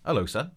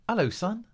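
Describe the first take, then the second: First: The voice is pitched deeper. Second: The voice is pitched higher.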